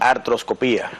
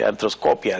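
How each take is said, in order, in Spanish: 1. La sílaba tónica es 'pi'. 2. La sílaba tónica es 'co'.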